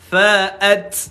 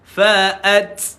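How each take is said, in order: No difference in how they are said.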